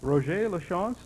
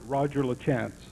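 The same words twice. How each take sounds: First: The name is said with French pronunciation. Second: The name is said with English pronunciation.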